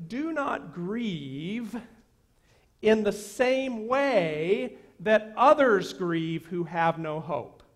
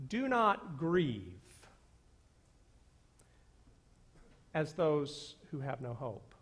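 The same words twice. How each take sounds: First: Slow, weight on "others"; "others" stressed, slowed and lifted; corrected emphasis. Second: "not" stressed, rest falling away; misread emphasis. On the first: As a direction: stretch out "in the same way that others". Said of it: "the best translation". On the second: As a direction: stress on "not", flat plain tune. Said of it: "where you put the emphasis". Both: Shown as a demonstration.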